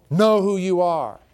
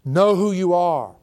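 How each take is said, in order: First: Know stressed, slow and falling; teaching it slowly; repeated emphasis. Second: Know drawn out slow, falling; slow emphasis on know. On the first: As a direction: say it again, slow and firm. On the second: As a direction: press each word slowly. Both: Shown as a demonstration. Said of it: "you should teach that".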